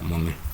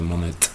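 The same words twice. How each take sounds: First: The final t sound is silent. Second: The final t sound is pronounced. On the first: The speaker calls it right. "la última consonante no se pronuncia" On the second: The speaker calls it wrong. "no se dice Monet"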